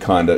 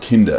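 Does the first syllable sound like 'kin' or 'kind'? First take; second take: kind; kin. First: The first syllable sounds like 'kind'. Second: The first syllable sounds like 'kin'. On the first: More kind. "should we be more kind, increasingly kind" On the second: Children. "as in children"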